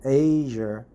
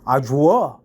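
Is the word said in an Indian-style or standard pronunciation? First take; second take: standard; Indian-style. First: The word has a standard, non-Indian pronunciation. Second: The word has an Indian-style pronunciation. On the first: The speaker calls it right. "I prefer to pronounce it Azure" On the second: The speaker calls it wrong. "Indians pronounce it Azure, Azure, uh, which is a little bit strange pronunciation"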